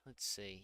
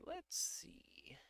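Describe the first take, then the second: First: Said in the usual way. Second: Breathy whispered aside; a private whispered let's see. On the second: Real, not acted. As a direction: whisper it to yourself. Whispering to himself mid-search.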